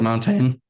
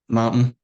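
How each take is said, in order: First: The middle t sound is clearly pronounced. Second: The middle t sound is swallowed. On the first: "instead of like" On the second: "We breeze over our consonants and say things like mountain"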